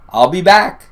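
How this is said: It is said in clear, unaccented English. "in the best English I've ever heard Arnold speaking"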